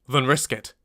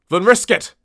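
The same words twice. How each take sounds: First: It is said in a calm, even way. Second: It is said in an agitated, not calm, way.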